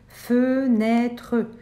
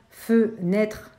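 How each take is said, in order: First: It is said in three syllables, final e pronounced. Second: It is said in two syllables, final e silent. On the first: "c'est pas très naturel, mais on va essayer de prononcer fenêtre" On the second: "ne comportait que deux syllabes"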